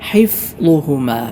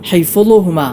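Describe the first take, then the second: First: The f flows on smoothly without a bounce. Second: The f is released with a bouncing echo. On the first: The speaker calls it right. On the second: The speaker calls it wrong.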